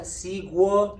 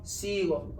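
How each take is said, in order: First: Sigo said as see-gwo with a u sound; wrong way. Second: Sigo said plainly as see-go; right way. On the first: Teacher warns students, wrongly sounding a u in sigo. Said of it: "It's not sigo, no, no, no". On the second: Teacher gives students the correct sigo, see-go. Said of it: "no, no, no". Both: Shown as a demonstration.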